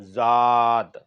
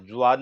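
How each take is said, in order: First: ज़ाद said as plain zaad with no w glide, firm and falling; correct reading. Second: ज़्वाद said with a zw glide, quickly, the wrong way; wrong reading. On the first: Teacher giving students the correct reading ज़ाद. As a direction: clean zaad, no w in it. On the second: Teacher showing students the wrong reading ज़्वाद. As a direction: say ज़्वाद with the w sound, as the mistake. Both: Shown as a demonstration. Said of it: "ज़्वाद नहीं पढ़ना है".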